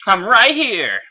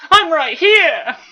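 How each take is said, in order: First: Loud confident call, higher; better take shout. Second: Very high loud shout, slow; first take shout. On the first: Bumblebee revealing himself to Megatron, confident loud call. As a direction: call out firmly to announce yourself. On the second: Bumblebee calling out to Megatron, high loud shout. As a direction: yell it out, pitched way up. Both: Acted. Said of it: "say that a little bit better".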